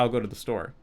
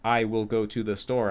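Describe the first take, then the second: First: The words run together with sounds dropped. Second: Every word is said separately and fully. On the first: The speaker calls it right. "slurring tons of th- things" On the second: The speaker calls it wrong. "I wouldn't say"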